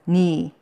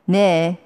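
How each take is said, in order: First: The word is said with the vowel i. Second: The word is said with the vowel e.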